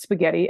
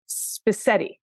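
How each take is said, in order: First: The middle consonant is a hard g sound. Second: The middle consonant is an s sound. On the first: The speaker calls it right. "the word spaghetti" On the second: The speaker calls it wrong. "I would pronounce spaghetti as spisetti"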